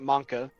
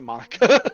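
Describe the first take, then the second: First: The name is said with two syllables. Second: The name is said with three syllables. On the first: This is the proper pronunciation. The speaker calls it right. "I don't pronounce it Monka" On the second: This is a willing mispronunciation. The speaker calls it wrong. "I pronounce it Monica"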